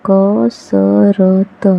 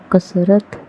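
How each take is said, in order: First: कसरत split into slow syllables क-स-र-त; spelled out slowly. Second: Said in the usual way. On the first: Shown as a demonstration. Teacher sounding out कसरत slowly for children. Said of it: "syllable-by-syllable then whole". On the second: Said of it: "whole word after sounding out".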